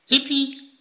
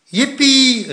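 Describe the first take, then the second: First: Little echoing cheer. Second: High, loud whoop; excited cheer. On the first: Little Poekie copying his brother's cheer, excited cry. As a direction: echo the cheer as the smaller child. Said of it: "riep Poekie". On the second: Plop cheering at grandma's breakfast plan, excited cry. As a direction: cheer out in delight. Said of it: "riep Plop". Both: A narrator's reading.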